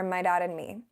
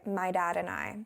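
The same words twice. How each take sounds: First: "dad" said /dæd/ with a clipped vowel; "dad" drifting toward "dog"; Irish-tinged dad. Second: "dad" with a near-t start, /tæd/; "dad" said softly, almost like "dog"; Irish-tinged dad. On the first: Second take of her odd "dad" for viewers. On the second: Showing viewers how her "dad" sounds odd. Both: Shown as a demonstration. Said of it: "something that I cannot hear".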